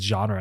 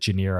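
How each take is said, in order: First: The word is said like 'zhahn-ruh'. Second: The word is said like 'junior'. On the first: The speaker calls it right. "somebody said genre" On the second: The speaker calls it wrong. "forever I called it Junior"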